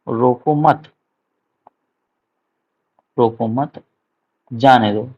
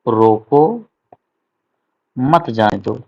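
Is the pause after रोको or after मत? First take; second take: after मत; after रोको. First: The pause comes right after मत. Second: The pause comes right after रोको.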